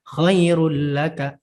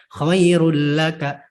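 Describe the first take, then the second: The two takes are said the same way.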